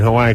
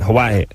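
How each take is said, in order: First: Said smoothly with no glottal stop break. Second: Said with a glottal stop break before the end. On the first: This is the mainland way of saying it. "we always call it" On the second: This is how local people say it. "everyone in Hawaii calls it"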